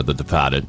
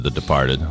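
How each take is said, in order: First: "Departed" with the R dropped, Boston style; Boston accent. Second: Said in the usual way. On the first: Shown as a demonstration. Offering the local version of a film title, Boston accent on "Departed". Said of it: "if you prefer". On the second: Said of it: "or The Departed, if you prefer".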